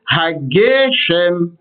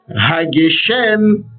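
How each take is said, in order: First: The stress is on the second-to-last syllable. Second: The stress is on the last syllable. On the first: The speaker calls it right. "Il faut dire Hageshem. C'est donc le Ge qui sera accentué" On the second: The speaker calls it wrong. "ça ce n'est pas correct"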